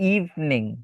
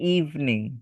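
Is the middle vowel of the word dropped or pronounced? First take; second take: dropped; dropped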